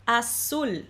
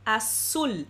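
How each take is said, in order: The two takes are said the same way.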